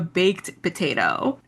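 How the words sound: The stress falls on the word baked. The speaker calls it wrong. "That's how she says it in the show"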